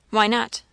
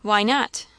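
First: Brief demand leaning on WHY; emphatic demand. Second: Insistent question, NOT stressed and rising; more emphatic demand. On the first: Aunt questioning the girl, "Why not?" demanded with stress on Why. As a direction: put the weight on "Why", mildly emphatic. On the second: Aunt pressing a hesitant girl, emphatic rise on "not". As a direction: hit "not" hard and lift it. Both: A narrator's reading. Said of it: "still more emphatically than before".

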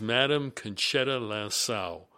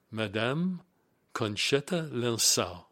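First: First rough try at "Madame Conchetta Lansau"; attempted French name. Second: "Madame" stressed on the second syllable, rising, then a pause; slow, separated "Madame ... Conchetta Lansau", with "Conchetta" begun like "con-shetta"; careful French attempt. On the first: Reading out a French executive's name, rough attempt at pronunciation. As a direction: say "Madame Conchetta Lansau" slowly with an anglicised "Madame", stress up front. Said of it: "don't hold me to the French pronunciation".

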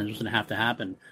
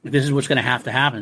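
First: Softer, repeated to himself; quiet repeat. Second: Said in the usual way. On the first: Retold or imitated. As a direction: drop the voice, half to yourself. Aragorn repeats the resolve to himself.

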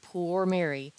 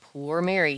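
First: Quoted poor Mary with mild comic pathos; a touch of mournful mock pity. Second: Poor Mary with a touch of mock pathos; lightly overplayed pity on poor Mary; comic pathos. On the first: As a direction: dwell pityingly on poor Mary, understated. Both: A narrator's reading. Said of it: "with a profound comic pathos".

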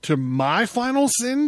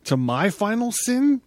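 First: Even higher, incredulous rising shout. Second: High, loud disbelieving cry; shouted. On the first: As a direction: throw the question up, louder. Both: Acted. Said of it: "shouted Zarathustra".

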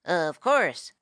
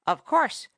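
First: A touch of hasty raccoon, falling end; mildly hurried agreement. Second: Lightly voiced parrot, higher pitch, rising end; a hint of a knowing storyteller parrot; parrot's assured aside. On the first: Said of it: "said the raccoon hastily". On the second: Parrot lecturing the animals, grandly. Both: A narrator's reading.

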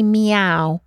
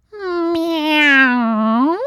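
First: Said in the usual way. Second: High, whiny little kitten meow; a pathetic, whiny cat cry. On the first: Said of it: "a pathetic sort of whiny". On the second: A narrator's reading. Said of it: "a pathetic sort of whiny meow".

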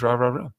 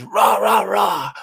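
First: Dog barking back. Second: Mock shouting noise. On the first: Retold or imitated. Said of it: "The dog goes". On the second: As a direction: bark "Rah, rah, rah" up high as meaningless yelling. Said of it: "all the dog hears is".

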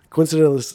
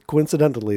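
First: High, loud burst; loud exclaim. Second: Said in the usual way. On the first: Acted. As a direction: blurt it out. Joke line, loud first take.

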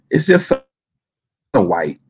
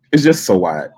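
First: "It's just so" rising, pause, then "white." dropped low and soft; drawn out with pause. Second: Said in the usual way. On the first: Shown as a demonstration. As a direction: hold "so", pause, drop "white".

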